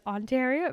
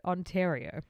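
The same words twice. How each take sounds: First: "Ontario" pitched high with a questioning lift; tentative pronunciation. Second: Said in the usual way. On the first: Shown as a demonstration. Co-host testing how to say Ontario, higher tentative "Ontario". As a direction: say "Ontario" higher, rising at the end. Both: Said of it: "I wanna say, like".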